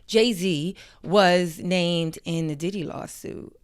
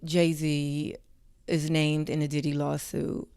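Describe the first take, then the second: First: It is said with more punch and energy. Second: It is said flatly with little energy. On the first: The speaker calls it right. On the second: The speaker calls it wrong.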